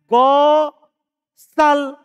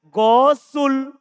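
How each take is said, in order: First: The s is followed by an a vowel. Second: The s is followed by a u vowel. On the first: "Bisa saja dia baca" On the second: "Kalau orang yang tidak tahu, bisa saja dia baca"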